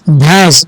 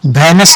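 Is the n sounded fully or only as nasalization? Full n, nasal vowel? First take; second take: nasal vowel; full n. First: The vowel is nasalized with no separate n. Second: A full n sound is said before the s. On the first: The speaker calls it right. "इसको नून गुनना पड़ेंगे" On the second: The speaker calls it wrong. "इसको भैनस नहीं पढ़ेंगे"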